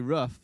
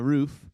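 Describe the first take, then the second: First: It is said like 'ruff', the American way. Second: It is said with a long 'oo', Canadian style.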